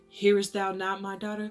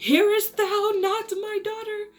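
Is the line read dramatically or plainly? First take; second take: plainly; dramatically. First: It is read plainly, without drama. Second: It is read in a dramatic, theatrical way.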